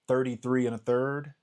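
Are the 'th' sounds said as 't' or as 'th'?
th. The th sounds are said as th. "one of my favorite things to get them to say"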